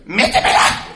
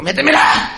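First: Loud, high, hammed-up woman's cry of passion; mock woman moaning. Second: Much higher, loud hammed-up woman's cry; mock woman moaning. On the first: Neighbour woman heard through the wall, hammed-up loud high moan. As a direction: overplay a woman's lustful cry. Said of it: "Y la pinche vieja decía". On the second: Neighbour woman heard through the wall, even higher squealing cry. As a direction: squeal it like she's possessed.

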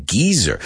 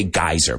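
First: "Geezer" with a long ee, GEE-zer; British pronunciation. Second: "geyser" as GUY-zer, with an eye vowel; American pronunciation. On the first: Teacher showing what the British say, British pronunciation. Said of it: "they pronounced it the same". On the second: Teacher showing what we say, American pronunciation. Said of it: "We say geyser". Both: Shown as a demonstration.

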